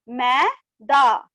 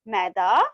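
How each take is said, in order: First: "मै... दा" slowly with a gap; syllable by syllable. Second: "maida" blended, low and rising; joined word. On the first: Teacher reading matra words to class, "मै - दा" split. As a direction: break "maida" into two syllables. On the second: Teacher completing the word for class, "maida" joined up. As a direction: run "maida" together as one word. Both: Shown as a demonstration. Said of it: "इस तरह से read करेंगे".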